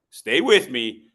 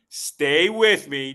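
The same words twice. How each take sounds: First: Said in the usual way. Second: Loud and drawn out slowly; slow emphatic. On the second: Shown as a demonstration. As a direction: stretch each word out, pleading. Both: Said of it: "repeated plea to audience".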